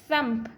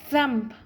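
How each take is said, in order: The two takes are said the same way.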